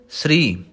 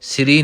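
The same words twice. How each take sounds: First: ਸ੍ਰੀ as one quick syllable, half s gliding into r; correct pronunciation. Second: ਸ੍ਰੀ said as siri, vowel inserted between s and r; wrong pronunciation. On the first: Teacher giving students the correct ਸ੍ਰੀ, short and clear. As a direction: clip the s straight into ri, no vowel between. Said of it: "ਸ੍ਰੀ ਨਹੀਂ ਕਹਿਣਾ". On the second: Teacher demonstrating the wrong siri to students, deliberate. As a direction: break ਸ੍ਰੀ into two syllables, si-ri. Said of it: "ਨਹੀਂ ਕਹਿਣਾ". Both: Shown as a demonstration.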